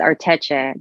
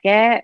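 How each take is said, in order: First: The consonant before the final vowel is 'ch'. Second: The consonant before the final vowel is 'k'. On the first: The speaker calls it right. "I think it's Arteche" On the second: The speaker calls it wrong. "I used to say Arteke, which is wrong"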